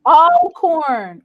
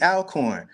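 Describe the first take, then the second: First: "Alcorn" with a broad "awl", ALL-corn, stressed first; corrected pronunciation. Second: "Alcorn" with a flat a, AL-corn like "pal"; Chicago pronunciation. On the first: Shown as a demonstration. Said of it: "Alcorn, all, all, Alcorn". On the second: Real, not acted. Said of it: "my Chicago accent kicks in".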